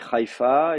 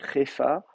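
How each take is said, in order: First: The first vowel is a full ai diphthong. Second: The first vowel is a plain contracted e. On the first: "vous pouvez soit la prononcer I bien comme il faut" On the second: "carrément faire une contraction, euh, Hefa"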